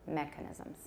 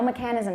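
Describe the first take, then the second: First: The stress falls on the first syllable. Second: The stress falls on a later syllable. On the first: The speaker calls it right. "make sure the stress is on the first syllable" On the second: The speaker calls it wrong. "so no mechanism"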